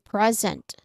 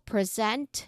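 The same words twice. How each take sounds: First: The stress is on the first syllable. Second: The stress is on the second syllable. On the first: It is a noun or adjective meaning current time. "the stress on the first syllable" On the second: It is a verb meaning to offer or deliver. "it's a verb, it's an action"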